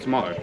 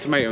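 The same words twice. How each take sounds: First: The word is said with a British accent. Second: The word is said with an American accent. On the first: This is how the older generation says it. "instead of tomato" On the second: This is how the younger generation says it. "they all say tomato ... say it in an American accent"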